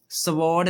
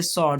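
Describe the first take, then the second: First: स्वॉर्ड with the w sounded, sa-word; wrong pronunciation. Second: स्वॉर्ड as sord, silent w; correct pronunciation. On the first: Teacher showing children the mistake, w sounded. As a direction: pronounce स्वॉर्ड wrongly, voicing the w. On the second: Teacher giving children the right form, silent w. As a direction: say स्वॉर्ड with no w sound, just sord. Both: Shown as a demonstration. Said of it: "स्वॉर्ड नहीं पढ़ना है इसे".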